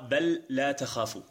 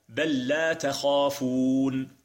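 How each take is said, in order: First: The two l sounds are pronounced separately. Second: The two l sounds merge into one doubled l. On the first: The speaker calls it wrong. "ولا تقرأ" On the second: The speaker calls it right. "تقرأ هكذا"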